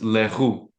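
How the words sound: The name is said with a French pronunciation. This is the real, original pronunciation. "It's Leroux because it's a French last name"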